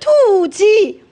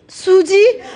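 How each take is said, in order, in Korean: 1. 이 이름은 t 비슷한 소리로 시작해요. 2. 이 이름은 분명한 s 소리로 시작해요.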